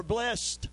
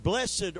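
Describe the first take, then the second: First: "blessed" in one syllable, like blest. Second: "Blessed" in two syllables, BLESS-ed. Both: Shown as a demonstration. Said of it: "Blessed or blessed".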